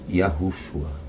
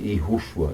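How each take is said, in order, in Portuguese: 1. O nome começa com um som de "yah". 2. O nome começa com um som simples de "ee". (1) "e sim Yahushua" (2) "não se pronuncia é"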